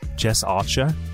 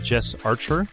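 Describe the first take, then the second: First: The name is said in an Australian accent. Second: The name is said in an American accent.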